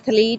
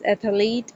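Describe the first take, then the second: First: It is said with two syllables. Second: An extra vowel splits the TH and L.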